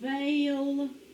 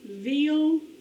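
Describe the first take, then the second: First: The vowel is a long A sound. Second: The vowel is a long E sound. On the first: The speaker calls it right. "let's try the A sound" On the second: The speaker calls it wrong. "let's start with the long E sound first"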